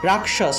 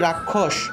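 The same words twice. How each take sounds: First: The middle cluster sounds like k plus sh. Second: The middle cluster sounds like a doubled kh.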